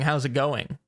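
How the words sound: It sounds like a sincere, friendly question.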